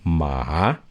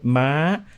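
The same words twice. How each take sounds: First: The pitch starts very low and rises high. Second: The pitch starts high and rises slightly higher. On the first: It means dog. "one to a four. Ma, from way, way down low up" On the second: It means horse. "it's about a four to a five. That's what we call the high tone in Thai"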